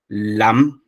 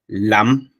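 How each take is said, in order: The two takes are said the same way.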